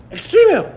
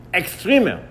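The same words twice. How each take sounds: First: High, loud scornful taunt; mocking jeer. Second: Said in the usual way. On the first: Scoffers branding Avraham an extremist, high loud sneer.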